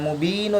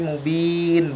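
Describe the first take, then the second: First: The word ends with a short u vowel. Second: The word ends on n with a lengthened vowel. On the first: The speaker calls it wrong. "bukan mubinu" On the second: The speaker calls it right. "tapi mubin, baca bacanya panjang enam harokat"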